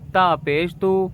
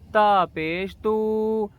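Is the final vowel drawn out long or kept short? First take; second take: short; long. First: The final vowel is kept short. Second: The final vowel is drawn out long. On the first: The speaker calls it right. "बस खींच के हल्का सा और आगे वाले हरूफ को पढ़ने लग जाना है" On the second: The speaker calls it wrong. "इस तरह से बिल्कुल भी आपको नहीं पढ़ना है, लंबा नहीं खींचना है"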